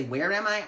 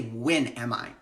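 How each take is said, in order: First: Said in the usual way. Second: WHEN said low and firm, falling; stress on WHEN. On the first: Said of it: "Actually, I don't say". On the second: Shown as a demonstration. Teaching herself to ask when, WHEN stressed. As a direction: lean on "When", not "Where". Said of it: "I say".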